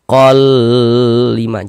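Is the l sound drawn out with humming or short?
drawn out. The l is drawn out with a nasal hum. The speaker calls it wrong. "jangan dibaca kol lima"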